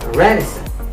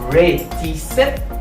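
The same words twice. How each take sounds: First: The middle t sounds like a quick d. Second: The middle t is a clear, hard t. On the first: The speaker calls it right. "m di reticent" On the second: The speaker calls it wrong. "Ou pa m di reticent"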